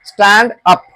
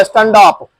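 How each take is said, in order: First: "स्टैंड अप" as two complete, separate words; full pronunciation. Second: "स्टैंड अप" slurred into "stan-daap"; wrong pronunciation. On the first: Teacher saying it must be complete, "स्टैंड अप" in two full words. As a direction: finish "स्टैंड" fully, then say "अप". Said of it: "पूरा लगना चाहिए". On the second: Teacher showing how not to say it, "स्टैंड अप" slurred together. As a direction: run the d of "स्टैंड अप" into the next vowel. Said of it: "ऐसा नहीं बोलना है". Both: Shown as a demonstration.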